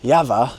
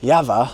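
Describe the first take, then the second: First: The name is said with a Czech pronunciation. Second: The name is said with a Czech pronunciation.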